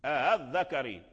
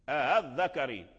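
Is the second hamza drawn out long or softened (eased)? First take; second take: softened; softened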